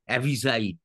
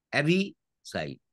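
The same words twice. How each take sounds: First: Said in the usual way. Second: "অ্যাভিসাইড" broken as avi, then cide; split in parts. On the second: Shown as a demonstration. Teacher showing students how the word divides, "অ্যাভিসাইড" said in separated parts. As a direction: clear pause before the falling last part of "অ্যাভিসাইড". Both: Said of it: "দুটো syllable যুক্ত শব্দও আছে".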